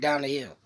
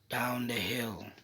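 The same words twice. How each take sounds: First: It is said quickly and briskly. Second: It is said slowly and subdued.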